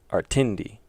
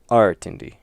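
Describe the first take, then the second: First: The stress is on the second syllable. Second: The stress is on the first syllable. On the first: "if it was on the second one" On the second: "if they put it on the first syllable"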